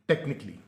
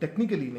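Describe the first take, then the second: First: 'technic' links directly into 'ly'. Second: An extra 'al' syllable is said before 'ly'. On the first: The speaker calls it right. "टेक्निक। और इसके साथ अगर आप L और Y लगा दें" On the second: The speaker calls it wrong. "टेक्निकली नहीं"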